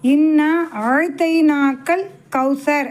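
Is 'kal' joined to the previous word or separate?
joined. The 'kal' sound is joined to the preceding word. God has given you the Kawthar. The speaker calls it right. "அப்படி சொல்லணும்"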